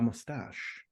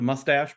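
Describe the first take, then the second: First: The word has a French pronunciation. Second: The word has an American English pronunciation. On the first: The speaker calls it right. "it feels like it should be La Moustache" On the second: The speaker calls it wrong. "The American pronunciation we'd call it the the Mustache"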